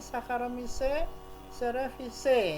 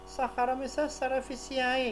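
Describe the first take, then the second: First: The final ae is said as one vowel. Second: The final ae is said as two vowels. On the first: The speaker calls it right. "tapi Saccharomyces cerevisiae ya" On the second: The speaker calls it wrong. "bukan Saccharomyces cerevisiae ya"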